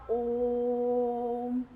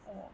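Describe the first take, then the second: First: ओम held out slowly, vowel drawn to triple length; stretched Om. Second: Said in the usual way. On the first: Shown as a demonstration. Teacher demonstrating to students, ओम sung out long. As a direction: stretch ओम like a pluta vowel, three beats long. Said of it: "कैसे लगा तिगुना समय?". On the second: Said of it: "यही मैंने लिखा यहाँ पे".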